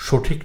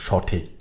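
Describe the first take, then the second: First: সঠিক said "shothik", rounded o; mistaken o vowel. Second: সঠিক said "shawthik", open aw; correct open vowel. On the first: Teacher showing the error to avoid, "shothik". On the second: Teacher correcting the error, "shawthik". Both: Shown as a demonstration. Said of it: "উচ্চারণ যেন".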